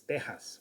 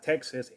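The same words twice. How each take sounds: First: The middle sound is a Spanish j. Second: The middle sound is an English x. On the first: The speaker calls it right. "with a J, not with an X" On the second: The speaker calls it wrong. "it's not Texas"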